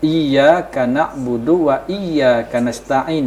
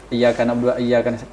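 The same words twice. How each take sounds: First: The y in iyyaka is held and doubled. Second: The y in iyyaka is short and single.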